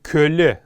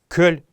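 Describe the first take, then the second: First: The word ends with a vowel sound. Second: The word ends with a consonant sound. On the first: The speaker calls it wrong. "очень распространенная ошибка говорить кёле нога. Это тоже неправильно" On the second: The speaker calls it right. "норма произношения этого слова именно кёль"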